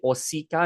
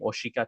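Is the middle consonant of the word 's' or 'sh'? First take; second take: s; sh. First: The middle consonant is a plain s sound. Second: The middle consonant is an sh sound. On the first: "some people say osika" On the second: "I'm saying oshika today"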